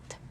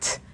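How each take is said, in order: First: The T is released without a strong puff of air. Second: The T is released with a strong puff of air. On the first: The speaker calls it wrong. "and not" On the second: The speaker calls it right. "When we say pop T, it sounds like this"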